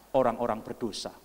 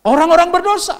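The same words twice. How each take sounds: First: Said in the usual way. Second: Much higher and louder; full-force preaching shout. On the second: Real, not acted. Preacher repeating who Jesus loves, shouted with full force. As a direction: hurl the phrase at the congregation.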